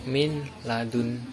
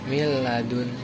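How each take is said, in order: First: The n is pronounced before the l. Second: The n merges into the l without nasal hum. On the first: The speaker calls it wrong. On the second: The speaker calls it right. "tanpa mendengung"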